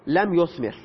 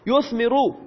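First: لم یثمر with the last r cut short, no vowel; final sukun. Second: یثمرو with a clear final -u, yuthmiru; final damma sounded. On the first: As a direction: say لم یثمر ending flat on a silent r, lam yuthmir. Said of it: "مجزوم شده و ساکن گرفته". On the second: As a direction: say یثمرو ending on an open u sound. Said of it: "یثمرو علامت رفع ضمه است". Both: Shown as a demonstration.

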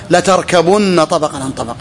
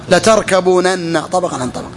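First: Latarkabunna with a short u and one doubled nun; contracted form. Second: Latarkabūnanna slowed, long ū and both nuns sounded; underlying form. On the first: Teacher cites the verse to students, verb in contracted form. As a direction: quote latarkabunna as written, short u. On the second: Teacher shows the verse's original form, every nun sounded. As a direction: open the verb out to latarkabūnanna, slowly. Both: Shown as a demonstration. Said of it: "أصله".

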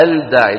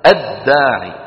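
First: الداعي with the L pronounced, "al-daa'i"; wrong sounded lam. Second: الداعي with no L, "ad-daa'i"; correct merged lam. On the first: Teacher shows what not to say, lam wrongly sounded. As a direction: sound a separate L before D in الداعي. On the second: Teacher models the correct word, lam merged into dal. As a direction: double the D at the start of الداعي. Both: Shown as a demonstration. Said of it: "ولا نقول،".

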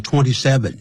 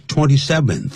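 First: "twenty-seven" with no th sound at the end; ending without th. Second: "twenty-seventh" with a final th sound; ordinal th ending. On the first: Showing students the mistake, "twenty-seven" without final th. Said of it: "但是不可以念成twenty-seven". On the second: Teacher correcting the date, "twenty-seventh" ending in th. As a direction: finish "twenty-seventh" on a clear th. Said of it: "要twenty-seventh". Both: Shown as a demonstration.

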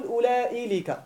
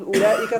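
First: أولئك said wrongly as ulailika with an added lam; wrong form. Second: أولئك said as ulaika with no extra lam; correct form. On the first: Teacher showing the wrong form students must avoid. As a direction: demonstrate the wrong أولئك, adding lam before the kaf. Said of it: "ولا تقول". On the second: Teacher modelling the correct plural form أولئك. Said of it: "تقول". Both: Shown as a demonstration.

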